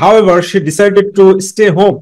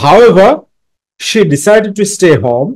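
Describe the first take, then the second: First: It runs on with no pause after however. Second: There is a short pause after however. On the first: The speaker calls it wrong. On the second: The speaker calls it right.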